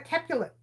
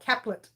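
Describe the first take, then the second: First: It is said with three syllables, like Capulet. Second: It is said with two syllables, like Caplet. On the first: The speaker calls it wrong. "I keep calling it a Capulet" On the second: The speaker calls it right. "But it's actually Capelet or Caplet"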